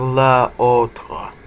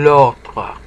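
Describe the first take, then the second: First: The article's vowel is kept before the noun. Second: The article's vowel is dropped before the noun. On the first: The speaker calls it wrong. "instead of la autre" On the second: The speaker calls it right. "l'autre instead of la autre"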